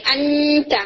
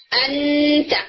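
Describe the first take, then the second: First: انتا said from the centre of the tongue; tajweed demo from the centre. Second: انتا with the tongue tip pressed, sounding like a clear noon; pressed tip demo. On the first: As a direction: contrast انتا with the pressed version. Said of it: "اگر آپ centre سے بولیں". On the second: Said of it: "دبا کر اخفا کرنے کی کوشش کریں". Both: Shown as a demonstration.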